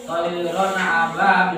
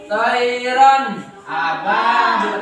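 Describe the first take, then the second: First: "toiron ababil" run together, the n not set apart; unclear wrong reading. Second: "Toiron ababil" chanted slowly, final n of "Toiron" distinct; ringing, drawn-out "Toiron ababil" with a clear n; clear nun reading. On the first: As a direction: blur "toiron" into "ababil" without emphasis. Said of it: "Nah, itu tidak jelas". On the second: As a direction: hold the vowels long and separate "Toiron" from "ababil". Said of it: "Harus kalian jelaskan bacanya". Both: Shown as a demonstration.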